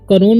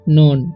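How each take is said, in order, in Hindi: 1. शब्द की शुरुआत में साफ़ k ध्वनि है। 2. शब्द सीधे n ध्वनि से शुरू होता है। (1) "इसे करोन नहीं पढ़ना है" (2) "के जो है यहाँ पर साइलेंट है तो इसे पढ़ेंगे हम नॉन"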